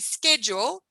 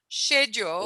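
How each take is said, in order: First: The word begins with an sk sound. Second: The word begins with an sh sound. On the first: "Some people say" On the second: "a S and a C and a H to make a sh noise"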